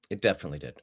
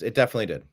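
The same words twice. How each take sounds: First: Softer, lower repeat; quiet echo. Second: Said in the usual way. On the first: Real, not acted. Repeating to himself, quietly confirming. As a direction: say it again under the breath.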